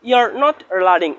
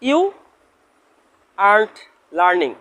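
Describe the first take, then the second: First: Are not is said as two full words. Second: Are not is contracted into one short word.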